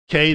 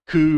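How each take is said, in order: First: The letter ends in an ay vowel. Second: The letter ends in an oo vowel. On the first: The speaker calls it right. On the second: The speaker calls it wrong.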